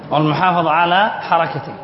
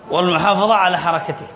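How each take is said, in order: Both takes have the same delivery.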